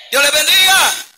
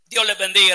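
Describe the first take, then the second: First: "Dios les bendiga" called out high and loud, "bendiga" stressed; louder blessing. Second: Said in the usual way. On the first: Shown as a demonstration.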